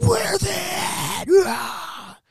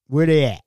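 First: Very slow, high, screaming monster roar; Hulk roar. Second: Loud, impatient manager's question; firm demand. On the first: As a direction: roar it out and end in a raw yell. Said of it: "like, the Hulk". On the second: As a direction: demand it firmly at normal pitch. Manager demanding missing workers' whereabouts. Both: Retold or imitated.

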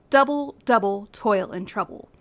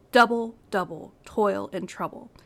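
First: "Double, double, toil and trouble" with each first syllable punched; stress on first syllables. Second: "Double, double, toil and trouble" in a falling beat, first syllables strong; rhythmic falling demo; trochaic stress again. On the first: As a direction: hit DOU-ble, DOU-ble, TOIL, TROU-ble in a steady trochaic beat. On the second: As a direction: repeat the line with the stress on DOU-ble and TOIL. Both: Shown as a demonstration. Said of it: "Notice the emphasis on the first syllable".

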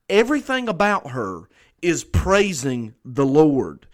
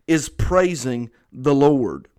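First: Said in the usual way. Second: "is praising the Lord" repeated slowly with weight on "is"; slow down and hammer "is praising the Lord" home; slow, weighty repetition of "is praising the Lord"; emphatic repeat. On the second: Shown as a demonstration. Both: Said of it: "it's mentioned twice to add emphasis".

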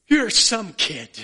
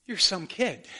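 First: Slow, louder Irish lilt, overcome with joy; hammed-up Irish dad praising his son; Irish father's blessing. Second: Said in the usual way. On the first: Irish father hugging his son on the green, slow, loud Irish accent. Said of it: "the father in his Irish accent say". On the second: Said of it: "the Father is going to say to you".

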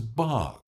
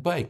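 First: "bog" for bike, long I opened to "ah"; Southern "bog", the I flattened to "ah"; Southern pronunciation. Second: Said in the usual way. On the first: Shown as a demonstration. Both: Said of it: "bike becomes bog".

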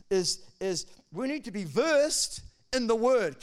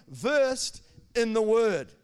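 First: Versed in the Word, slow and stressed. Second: Versed in the Word, slow, loud and stretched; stress on versed. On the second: Pastor to his church, each word hit slowly. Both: Shown as a demonstration. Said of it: "Can you say that this morning?".

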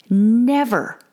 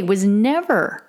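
First: Never pushed louder and higher; stronger never. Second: Never said once, steady and slow; first never. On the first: A mother insisting to listeners, never hit louder. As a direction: lean hard into never. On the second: A mother confessing, first never said slowly. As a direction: set up the word never calmly. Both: Real, not acted. Repeated never, building emphasis.

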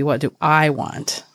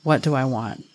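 First: I leaned on, want falling after it; single out I in the question; stress on I. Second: Said in the usual way. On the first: Shown as a demonstration. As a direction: put the weight on the word I. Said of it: "the I will be the emphasis". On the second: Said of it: "Write that simple sentence down".

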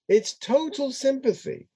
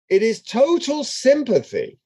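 First: Softer repeat. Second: Said in the usual way. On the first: Shown as a demonstration. Teacher to class, softly repeating for emphasis. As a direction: drop much softer and higher, almost tender.

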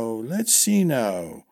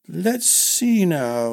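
First: Put-on muttering old man. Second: Put-on high, slow, pondering old man; thinking aloud slowly; musing old man. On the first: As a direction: drift off in thought. Old master musing, lower. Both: A narrator's reading.

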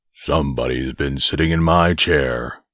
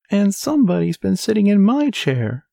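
First: Low, great big bear voice; growling father bear. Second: Very high, shrill little voice; squeaky baby bear. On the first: Father bear finding his chair sat in, growling low. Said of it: "growled the father bear in his great big voice". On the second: Baby bear finding his chair sat in, shrill squeak. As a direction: squeak it out like a tiny bear cub. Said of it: "squeaked the baby bear in his shrill little voice". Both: A narrator's reading.

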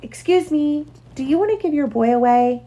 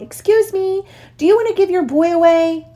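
First: Polite calling out. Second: High-pitched, eager call to someone off. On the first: Puppy asking a setter after a cross refusal, polite high-pitched call. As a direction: politely call out a careful request. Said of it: "called out politely". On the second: Puppy calling out to a collie on a bicycle, high-pitched call. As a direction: call out high and bright across a distance. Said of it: "He called out to the collie". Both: A narrator's reading.

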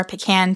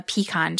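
First: "pecan" said pih-KAN, rhyming with can. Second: "pecan" said pee-KAHN, open ah at the end. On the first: Narrator offering the other pronunciation, "pecan" as pih-KAN. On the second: Narrator offering one way to pronounce it, "pecan" as pee-KAHN. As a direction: say "pecan" with a long ee, then KAHN. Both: Shown as a demonstration. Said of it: "depending on how you like to pronounce it".

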